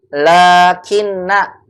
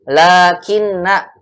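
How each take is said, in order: The two takes are said the same way.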